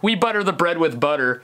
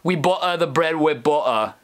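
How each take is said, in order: First: It is said in the speaker's plain accent. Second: It is said in a put-on British accent.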